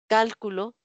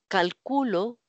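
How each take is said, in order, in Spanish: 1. El acento está en la primera sílaba. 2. El acento está en la sílaba del medio. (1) "palabra esdrújula" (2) "palabra grave"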